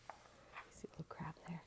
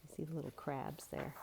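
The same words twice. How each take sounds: First: Whispered so as not to scare them; don't scare the crabs, just a whisper. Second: Much softer, hushed pointing; hushed, pointing out the crabs; quiet. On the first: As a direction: breathe it like a secret. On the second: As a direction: point them out softly. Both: Shown as a demonstration. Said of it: "whisper repeat".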